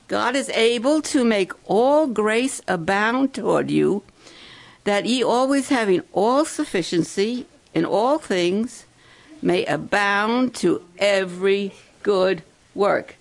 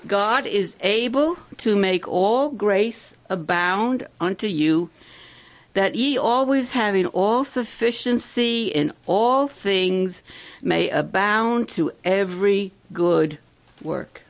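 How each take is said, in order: First: Louder, proclaiming Bible verse; preacher rereads the verse louder for the campers; emphatic scripture reading. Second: Slow, measured verse reading, a bit louder; preacher reading a Bible verse to the campers; scripture reading. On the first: Shown as a demonstration. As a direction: declaim the verse so they can repeat it. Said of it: "Now listen". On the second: Acted. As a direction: read the verse out solemnly, word by word.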